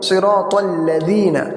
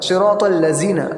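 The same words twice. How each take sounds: First: The middle consonant is a thin, light d. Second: The middle consonant sounds like a z. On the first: The speaker calls it right. "दाल को बिल्कुल बारीक" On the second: The speaker calls it wrong. "यानी कि दाल को ज़ा कर देते हैं, ये गलत है"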